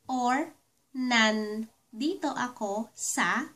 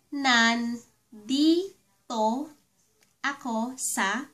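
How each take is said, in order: First: It is said at a normal, quicker pace. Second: It is said slowly and carefully.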